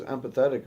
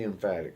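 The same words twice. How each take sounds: First: Empathetic read as em-PATH-et-ic, the wrong word; misread word. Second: Emphatic said em-FAT-ic, the right word; emphatic, the fixed reading; corrected word. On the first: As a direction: stumble onto empathetic instead of emphatic. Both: Real, not acted. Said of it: "Oh, emphatic".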